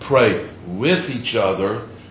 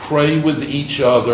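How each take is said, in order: First: The word with carries strong stress. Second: The word with carries no special stress.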